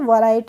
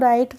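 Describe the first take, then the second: First: The word begins with an audible W sound. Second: The word begins directly with the R sound. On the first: The speaker calls it wrong. "वराइट नहीं पढ़ेंगे" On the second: The speaker calls it right. "इसको राइट पढ़ेंगे"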